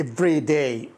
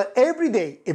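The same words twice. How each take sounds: First: "every day" in a second variant, lower; variant pronunciation. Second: "every day" in one variant, slightly drawn out; variant pronunciation. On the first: Teacher shows another accepted way, lower "every day". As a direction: drop the pitch on the other "every day". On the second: Teacher shows how some say it, variant "every day". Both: Shown as a demonstration. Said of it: "طبعًا تجد بعض every day".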